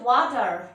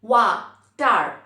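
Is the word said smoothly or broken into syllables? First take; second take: smoothly; broken. First: The word is said smoothly without a break. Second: A short pause separates the two syllables.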